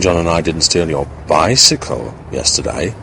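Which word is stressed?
bicycle. The word bicycle is stressed. Something else was stolen instead. "suggesting that we may have stolen something else"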